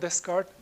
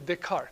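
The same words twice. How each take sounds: First: The name is said with English pronunciation. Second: The name is said with French pronunciation. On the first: The speaker calls it wrong. "not Descartes" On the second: The speaker calls it right. "we pronounce the name usually Descartes"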